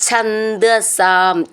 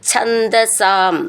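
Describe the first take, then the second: The two takes are said the same way.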